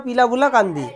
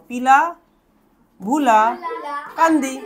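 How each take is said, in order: First: Said in the usual way. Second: পিলা, ভুলা, কান্দি each set apart by a pause; broken into syllable groups. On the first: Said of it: "প্রথম উচ্চারণ পারবো আমরা". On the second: Shown as a demonstration. Teacher breaking a long name for students, পিলা, ভুলা, কান্দি said piece by piece. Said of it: "আমরা ভেঙে নেবো".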